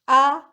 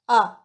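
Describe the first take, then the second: First: The pitch stays high and level. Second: The pitch falls sharply from high to low. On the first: It expresses surprise and admiration. "The first tone" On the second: It gives an answer or shows sudden understanding. "Fourth tone"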